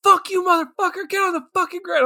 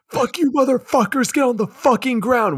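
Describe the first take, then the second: First: High, fast squeaky threat; squeaky mock kid gangster; mocking kid mobster. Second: High, loud screamed threat; squeaky kid yelling orders; screaming kid mobster. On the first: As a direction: parrot the kid's tough talk. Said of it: "they're like". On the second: Retold or imitated. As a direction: shriek it like a tiny gangster. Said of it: "and scream".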